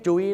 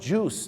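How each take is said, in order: First: The vowel glides from oo to ee. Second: The vowel is a plain long oo. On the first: The speaker calls it wrong. "น้ำผลไม้ไม่ใช่จุ้ยนะฮะ" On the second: The speaker calls it right. "ต้องออกเสียงว่า"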